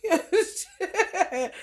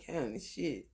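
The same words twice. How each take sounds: First: Slow, high, said through a laugh. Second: Said in the usual way. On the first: Real, not acted. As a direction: let the laugh carry the words. Laughing after the mock quote.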